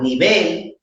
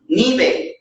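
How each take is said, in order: First: The stress is on the second syllable. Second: The stress is on the first syllable. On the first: The speaker calls it right. "que é o certo, que é a segunda sílaba, que é a tônica" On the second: The speaker calls it wrong. "ele pode não entender o que eu estou dizendo"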